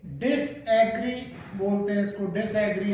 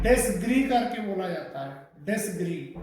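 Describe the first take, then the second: First: "डिसएग्री" in two pieces, "dis; disagree split apart. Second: "डिसग्री" run together, no vowel after dis; correct disagree pronunciation. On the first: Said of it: "अलग अलग करके बोलते हैं". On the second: Teacher modelling for students, "डिसग्री" joined as dis-gree. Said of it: "इसी तरीके से ये". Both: Shown as a demonstration.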